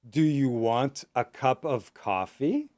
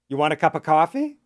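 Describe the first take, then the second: First: The question is spoken slowly with every word. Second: The question is spoken quickly and run together. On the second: "and fast"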